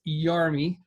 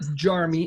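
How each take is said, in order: First: The name begins with a Y sound. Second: The name begins with a J sound. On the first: The speaker calls it right. "it's Yarmy" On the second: The speaker calls it wrong. "It's not Jarmy"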